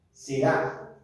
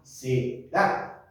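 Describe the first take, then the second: First: "será" repeated slowly, weight on the final A; "será" with a clear stressed A at the end. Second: "será" said with the stress on the final A, se-RÁ. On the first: Pastor repeats the Hebrew word for the class, stressed final A. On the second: Pastor spelling out a Hebrew word for the congregation, stressed final A. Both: Shown as a demonstration. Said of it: "tilde en la A".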